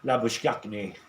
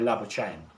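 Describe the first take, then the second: First: The name is said with a South African pronunciation. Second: The name is said with an Australian pronunciation. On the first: "Back in South Africa, ... It would more than likely be Labuschagne" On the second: "here in Australia, they say Labuschagne"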